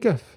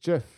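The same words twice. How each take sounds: First: The word begins with a hard G sound. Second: The word begins with a soft J sound. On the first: "It's got to be GIF" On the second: "It's a soft G pronounced GIF"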